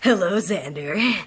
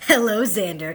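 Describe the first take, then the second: First: It is read in a semi-sultry voice. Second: It is read in a plain voice.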